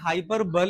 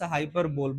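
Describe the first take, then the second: First: The word ends with a 'buh-lee' sound. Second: The word ends with a 'bowl' sound. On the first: The speaker calls it right. "Is the exact pronunciation" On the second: The speaker calls it wrong. "I use to pronounce हाइपर बोल but it was wrong"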